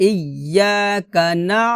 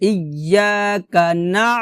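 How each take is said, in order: No difference in how they are said.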